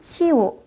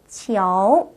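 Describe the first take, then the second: First: The middle o sound is left out. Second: A light o sound is heard in the middle. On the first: The speaker calls it wrong. "치우라고 읽는 실수를 저지를 수가 있는데요" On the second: The speaker calls it right. "오 발음이 살짝 들어갑니다"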